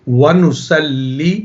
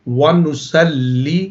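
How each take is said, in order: No difference in how they are said.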